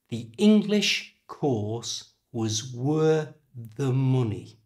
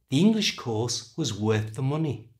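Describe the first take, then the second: First: The sentence is spoken slowly. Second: The sentence is spoken at normal speed. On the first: "first I'll say it slowly" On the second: "And at normal speed"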